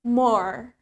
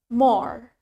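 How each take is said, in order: Both takes have the same delivery.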